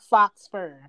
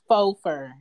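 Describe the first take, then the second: First: The first word ends with a clear 'ks' sound. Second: The first word ends in a vowel, no 'ks'. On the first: The speaker calls it wrong. "is not fox fur" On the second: The speaker calls it right. "It's faux fur"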